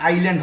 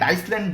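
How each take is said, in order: First: No s sound is pronounced after the first syllable. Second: An s sound is pronounced after the first syllable. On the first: The speaker calls it right. "এখানে আইল্যান্ড হবে" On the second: The speaker calls it wrong. "অনেকে বলে আইসল্যান্ড, আইসল্যান্ড না"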